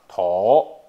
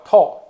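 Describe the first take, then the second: First: The word is given its colloquial reading. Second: The word is given its literary reading. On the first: This is the everyday spoken form. "所以土这个音白读叫头" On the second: This is the formal reading used in set phrases. "但是文读叫透"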